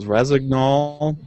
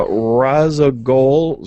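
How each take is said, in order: First: Razagnol said slowly with a clear g-n; careful Razagnol, rah-zag-nol; corrected name. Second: Razagol said slowly without the n sound; drawn out Razagol, stressing the first syllable; mispronounced name. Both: Real, not acted. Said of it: "not sure about his name".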